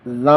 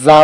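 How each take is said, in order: First: زا with a loose, soft tongue, a little quieter. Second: زا with the tongue pressed hard, rising at the end; firm za. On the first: Teacher contrasting similar letters for students, soft gentle za. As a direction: let زا come out softly and relaxed. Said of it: "زبان کی نرمی کے ساتھ ادا ہوگا". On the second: Teacher contrasting similar letters for students, firm pressed za. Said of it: "زبان کی سختی کے ساتھ ادا ہوگا". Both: Shown as a demonstration.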